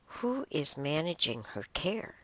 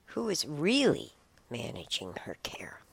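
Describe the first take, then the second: First: Said in the usual way. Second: REALLY leaned on, pitch swooping up; stress on REALLY. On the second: Real, not acted. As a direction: punch the word REALLY to cast doubt. Repeats question with one word emphasised.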